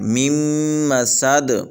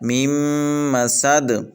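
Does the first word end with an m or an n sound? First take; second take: m; m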